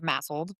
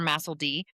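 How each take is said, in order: First: The ending is blended into one syllable, 'sled'. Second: The ending is a separate spoken letter D.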